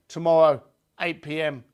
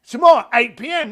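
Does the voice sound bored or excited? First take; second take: bored; excited. First: It is said in a flat, bored tone. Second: It is said in a lively, excited tone. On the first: The speaker calls it wrong. "It's boring, isn't it?" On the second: The speaker calls it right. "You can hear the excitement, the change in tonality"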